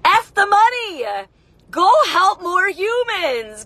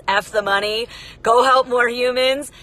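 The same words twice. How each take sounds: First: Rally the crowd with F the money, Go help more humans; emphatic slogan. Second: Said in the usual way. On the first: Acted. Slogan urged on viewers.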